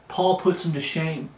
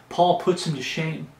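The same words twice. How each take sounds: The two takes are said the same way.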